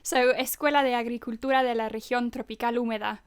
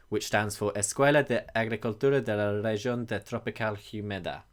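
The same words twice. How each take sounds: First: Escuela de Agricultura said fast, native Spanish sounds; fluent Spanish pronunciation. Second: Escuela de Agricultura said haltingly, anglicized; awkward Spanish pronunciation. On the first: Shown as a demonstration. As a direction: rattle off the Spanish name fluently. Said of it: "would you like to say it better". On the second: Real, not acted. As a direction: stumble through the Spanish name. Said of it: "my pronunciation is awful".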